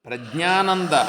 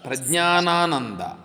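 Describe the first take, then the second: First: One 'na' syllable is left out of the name. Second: Every 'na' syllable in the name is pronounced. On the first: The speaker calls it wrong. "ఒక నా తీసేస్తే ఎట్లా మీరు?" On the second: The speaker calls it right. "ప్రజ్ఞానానంద Saraswati అనండి"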